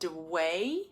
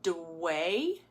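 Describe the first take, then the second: First: Consonant and vowel separate, ending in a swinging glide. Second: Consonant and vowel separate, ending in a swinging glide.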